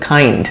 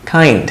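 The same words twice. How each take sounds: The two takes are said the same way.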